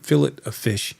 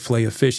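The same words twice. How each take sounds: First: The phrase is said in a British way. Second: The phrase is said in an American way. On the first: "he said fillet of fish at McDonald's" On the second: "instead of fillet of fish"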